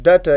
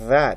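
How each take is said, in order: First: The word starts with a hard d sound. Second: The word starts with a voiced th sound. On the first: The speaker calls it wrong. "It's not data" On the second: The speaker calls it right. "it's a that"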